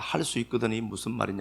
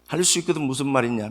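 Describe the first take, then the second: First: It is said gently and softly. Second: It is said abruptly and angrily.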